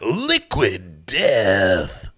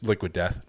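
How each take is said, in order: First: The name is said with loud, dramatic energy. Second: The name is said plainly, without extra energy. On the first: The speaker calls it right. "I cannot say it without wanting to do that" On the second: The speaker calls it wrong. "you can't just say Liquid Death"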